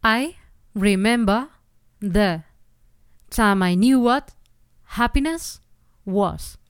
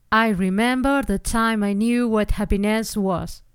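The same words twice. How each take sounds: First: "happiness" stressed on the first syllable, ha, the rest rushed together. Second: "happiness" stressed on the last syllable, ness; slow line with the wrong accent "happiNESS". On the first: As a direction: hit the "ha" of "happiness" and run the other words together. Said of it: "Tendrías que escribir". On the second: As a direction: put the weight on "ness" of "happiness", slowly. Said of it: "Pero eso estaría mal". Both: Shown as a demonstration.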